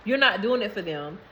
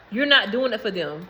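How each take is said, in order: Both takes have the same delivery.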